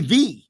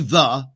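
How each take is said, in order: First: The word ends in a long 'ee' vowel. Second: The word ends in a short 'uh' vowel. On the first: "isn't that T H E E?" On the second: "they don't say the"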